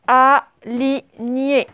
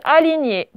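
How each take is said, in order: First: ALIGNÉ very slow, split a, li, gné; syllable-by-syllable dictation. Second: Said in the usual way. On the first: Shown as a demonstration. Teacher dictates a new word to the class, dictation. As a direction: separate all three syllables of ALIGNÉ.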